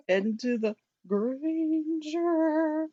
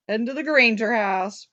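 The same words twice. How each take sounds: First: Slow, stretched "Granger"; drawn-out hype. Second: Said in the usual way. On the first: Pretend. Host hyping the trip to the Granger house, drawn-out excitement. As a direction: draw "Granger" out long and teasing.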